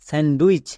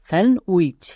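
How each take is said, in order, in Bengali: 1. "sandwich" শব্দে d ধ্বনিটি উচ্চারিত হয। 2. "sandwich" শব্দে d ধ্বনিটি নীরব থাকে। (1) "সম্পূর্ণ ভুল" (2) "ডি এর উচ্চারণ হবে না"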